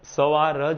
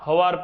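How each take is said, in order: First: The word begins with an s sound. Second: The word begins with an h sound. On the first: This is the standard written language form. "લખીએ ત્યારે તો સવાર જ લખીએ છીએ" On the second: This is the everyday spoken dialect form. "બોલીએ ખરા હવાર પડી ગયું"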